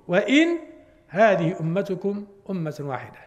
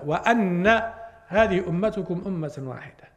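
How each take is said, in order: First: The first word has i, then a single n. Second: The first word has a, then a doubled n. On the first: "بكسر الهمزة وتخفيف النون" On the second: "قراءة الجمهور بفتح الهمزة"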